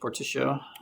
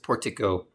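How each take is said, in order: First: The C is said soft, like an S sound. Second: The C is said hard, like a K sound.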